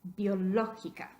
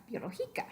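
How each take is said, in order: First: "biológica" as bio-LÓ-gi-ca; stress on LÓ. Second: Softer "biológica", stressed on GI; misplaced stress. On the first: Teacher repeating the correct form, biológica stressed on LÓ. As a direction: punch the third-from-last syllable LÓ in "biológica". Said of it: "Queremos decir biológica". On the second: Teacher repeating the wrong form, softer biológica stressed on GI. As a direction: stress GI in "biológica", said more quietly. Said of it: "cae en la penúltima sílaba". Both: Shown as a demonstration.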